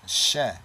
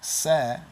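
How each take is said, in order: First: "she" with SH in place of S and a short open "eh" vowel; ancient SH sound. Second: "se" with a plain S, higher and clearly set apart; modern S sound. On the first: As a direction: say "she" as "sheh", raised and set apart. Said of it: "in the ancient". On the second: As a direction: say "se" with a sharp S, not SH. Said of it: "this would be the she". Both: Shown as a demonstration.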